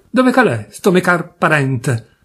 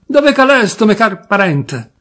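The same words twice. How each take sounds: First: Put-on Turin accent shout. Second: Put-on higher, louder Turin-accent bellow; the drunk demanding again, louder, in Turin dialect; louder Turin accent shout. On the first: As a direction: bawl it in broad Piedmontese Turin accent, drawn out at the end. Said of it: "si mise a gridare con stretto accento torinese". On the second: Drunk cousin repeating his call, louder, Turin accent. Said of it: "con stretto accento torinese".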